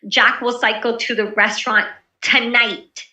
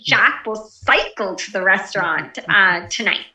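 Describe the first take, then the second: First: The word tonight carries the main stress. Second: The word cycle carries the main stress. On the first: The time of the trip is the main point. "tonight, not tomorrow" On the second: The way of travelling is the main point. "the emphasis on the bike"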